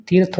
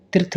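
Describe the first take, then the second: First: तीर्थ with a long ee; correct long vowel. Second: तीर्थ with a short i; wrong short vowel. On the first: Teacher corrects students, long vowel. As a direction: say तीर्थ as teerth. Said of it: "होता है". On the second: Teacher shows students the mistake, short vowel. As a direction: say तीर्थ as tirth. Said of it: "नहीं". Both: Shown as a demonstration.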